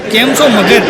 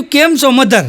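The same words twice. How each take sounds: First: "મગર" said as magar, the dropped-r American "mother"; "કેમ છો મગર?" with "મગર" for mother, American-style; Americanised mother. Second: "મધર" said clearly with dh as madhar; "કેમ છો મધર?" with a clear "મધર"; proper mother. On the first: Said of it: "આવતા વેત મને એણે મગર કીધું". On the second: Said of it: "મધર કીધું". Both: Retold or imitated.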